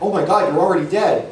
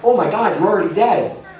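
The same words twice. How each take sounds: First: It is delivered flat and wooden. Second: It is delivered with exaggerated physical energy.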